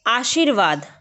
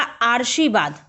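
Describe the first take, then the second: First: आशीर्वाद said aa-sheer-vaad, the r sound after the sh; correct pronunciation. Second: आर्शीवाद said aar-shee-vaad, the r moved before sh; wrong pronunciation. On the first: Teacher showing students the right way, आशीर्वाद as aa-sheer-vaad. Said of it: "आशीर्वाद हमको लग रहा है कि श पे र होना चाहिए". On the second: Teacher showing the common student error, आर्शीवाद as aar-shee-vaad. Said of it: "जो कि गलत होगा". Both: Shown as a demonstration.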